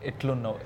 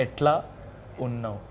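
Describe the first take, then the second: First: Said in the usual way. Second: Broken into parts. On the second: Shown as a demonstration. Singer repeats for puzzled host, "Etla" and "unnav" separated. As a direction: split it for a learner: "Etla ... unnav". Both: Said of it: "I'm sorry, what?".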